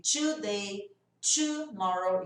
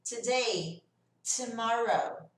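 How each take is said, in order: First: "today" as "chu-day", "tomorrow" as "chu-morrow"; wrong CH sound. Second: "Today" as "tuh-day", "tomorrow" as "tuh-morrow"; clean T pronunciation. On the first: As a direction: slowly start "today" and "tomorrow" with CH. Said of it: "Ao invés do som do C H". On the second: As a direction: start "Today" and "tomorrow" on a crisp T. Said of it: "eu vou fazer t". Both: Shown as a demonstration.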